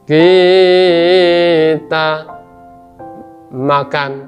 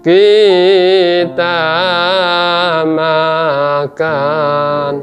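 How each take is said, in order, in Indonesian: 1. Bagian pertama panjang, yang kedua pendek. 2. Setiap bagian dipanjangkan. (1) "Yang pertama panjang, kedua pendek" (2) "panjang semua ya"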